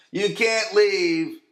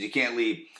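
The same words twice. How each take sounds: First: YOU CAN'T LEAVE drawn out slowly, high and loud; emphatic repeat. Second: Said in the usual way. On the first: Real, not acted. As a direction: stretch "you can't leave" right out, pitched up and louder. Repeats the words with heavy emphasis.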